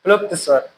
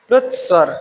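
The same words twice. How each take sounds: First: प्लुप्त स्वर read with an extra p, "pluptt"; misprinted form. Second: प्लुत स्वर said as "plut swar" with no extra p; corrected form. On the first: Teacher reads the book's misprint प्लुप्त to the class. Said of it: "किताब में क्या है कि misprint हुआ है". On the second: Teacher gives students the corrected प्लुत स्वर. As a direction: give the correct प्लुत, crisp and clear. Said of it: "अब सही". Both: Shown as a demonstration.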